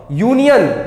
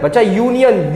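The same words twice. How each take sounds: First: यूनियन begins with a y glide, "yoo"; yoo start. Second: Said in the usual way. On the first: Shown as a demonstration. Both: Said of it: "यू आ रहा है".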